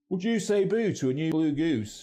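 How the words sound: It is spoken in a Manchester accent. "We also hear this in Manchester"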